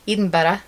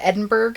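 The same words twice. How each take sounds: First: Edinburgh in a Scottish accent; Scottish pronunciation. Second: Said in the usual way. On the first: Shown as a demonstration. Showing what was learned in Scotland, Scottish-accented Edinburgh. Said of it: "I can say two things". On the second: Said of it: "How to say the Edinburgh".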